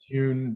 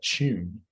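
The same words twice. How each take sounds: First: The t is followed by a y-glide. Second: The t is said like a ch sound. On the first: "I have all those on glides" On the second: "fully affricated"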